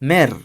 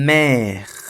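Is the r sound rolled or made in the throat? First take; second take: rolled; throat. First: The r is rolled with the tongue. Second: The r is made in the throat. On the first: "আমরা আফ্রিকান স্টাইলে করবো" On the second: "এটা হচ্ছে গলার থেকে আসে"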